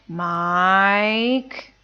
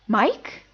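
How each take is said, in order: First: The pitch falls and then rises. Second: The pitch rises toward the end. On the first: Getting ready to scold someone. "That's the third tone" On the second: Being surprised to see someone. "That's the second tone"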